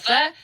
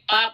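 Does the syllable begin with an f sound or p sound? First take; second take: f; p. First: The syllable begins with an f sound. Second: The syllable begins with a p sound. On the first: The speaker calls it right. "salah harusnya fa" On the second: The speaker calls it wrong. "kalau dilafalkan fa menjadi p"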